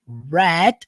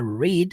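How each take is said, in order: First: The vowel is short, sounding like 'red'. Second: The vowel is long, sounding like 'reed'. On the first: It is the past tense. "Red igual a cor vermelha. Red. Pronto, você mudou para o passado" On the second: It is the present tense. "ao invés de falar read"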